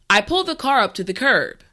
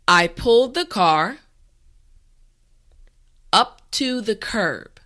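First: The sentence is said at a natural speed. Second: The sentence is said slowly and carefully. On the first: "this time we will go at a more natural pace" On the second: "this time repeat after me"

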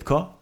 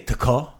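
First: The T flows straight into ko. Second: The T is said apart from ko. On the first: The speaker calls it right. "you just say tko? Like it's got to be like a nice... like a drum roll" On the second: The speaker calls it wrong. "So you don't say tko"

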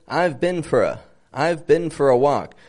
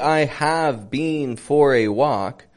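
First: I have is contracted to I've. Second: I have is said in full. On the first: The speaker calls it right. "but rather I've been for a walk" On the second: The speaker calls it wrong. "they don't say I have been for a walk"

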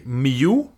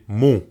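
First: The syllable is said as in English 'music'. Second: The syllable is said as in Russian 'музыка'. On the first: "in English, we say mu" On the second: "in Russian, it's just simply mu"

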